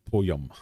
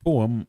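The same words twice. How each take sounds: First: Slow "poem" with a Y glide in it; poem stretched out as "poy-em"; Scottish "poem". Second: Said in the usual way. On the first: Shown as a demonstration. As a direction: say "poem" as "po-yem". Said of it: "as if it's got a Y in it". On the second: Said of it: "How do you pronounce".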